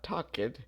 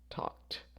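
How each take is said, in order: First: The ending is not pronounced as a t. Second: The ending is pronounced as a t sound. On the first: The speaker calls it wrong. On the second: The speaker calls it right. "the final sound here is a K, so it would be talked"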